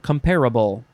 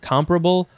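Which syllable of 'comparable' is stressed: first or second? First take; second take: second; first. First: The stress is on the second syllable. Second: The stress is on the first syllable. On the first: "or comparable" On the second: "you could emphasize both the first and the second syllables"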